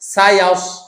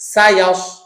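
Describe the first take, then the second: No difference in how they are said.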